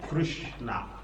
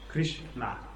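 No difference in how they are said.

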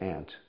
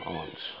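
First: The word sounds the same as 'ant'. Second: The word has a long broad 'ah' vowel. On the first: "sometimes in English we say aunt. We pronounce it the same way" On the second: "I'm pronouncing it deliberately, almost in a British pronunciation"

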